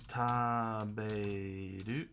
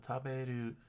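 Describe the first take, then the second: First: Taberu stretched very slowly, syllable by syllable; slowly sounded out. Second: Said in the usual way. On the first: Shown as a demonstration. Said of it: "Uh, taberu".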